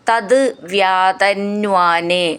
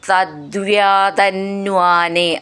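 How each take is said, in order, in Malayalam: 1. രണ്ട് വാക്കുകളും വേറിട്ടാണ് പറയുന്നത്. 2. രണ്ട് വാക്കുകളും ഒന്നിച്ചു ചേർത്താണ് പറയുന്നത്. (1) "പിരിച്ചു ചൊല്ലിയാൽ മതി" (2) "ചേർത്ത് ചൊല്ലുമ്പോൾ കുറച്ച് പ്രയാസമാവും"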